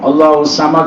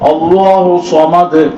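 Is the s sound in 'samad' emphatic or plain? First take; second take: plain; emphatic. First: The s is plain, said with spread lips. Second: The s is emphatic, said with rounded lips. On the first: God is foolish. The speaker calls it wrong. "சீன் உச்சரிக்கிறோம், வாயை விரிச்சு சொல்லிடுறோம்" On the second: God is self-sufficient. The speaker calls it right. "சாத வந்து வாயை குவிச்சு சொல்லணும்"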